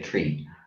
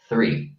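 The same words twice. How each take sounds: First: It is said in an Irish accent. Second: It is said in a standard English accent. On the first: The speaker calls it wrong. "Irish people say three" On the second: The speaker calls it right. "the correct English is three because you pronounce it"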